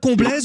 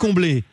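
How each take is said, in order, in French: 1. Le nom se termine par un son z. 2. Le nom se termine par une voyelle. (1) "Je prononce bien Comblaise" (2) "ou on dit Comblé ?"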